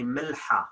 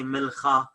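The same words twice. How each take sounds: First: Milha with a breathed h; classical h. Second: Milcha with a rasped kh; spoken kh. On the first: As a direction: say milha with airy h, no rasp. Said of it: "I should say milha". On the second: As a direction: say milcha with a throaty ch. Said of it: "I cannot say milcha". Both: Shown as a demonstration.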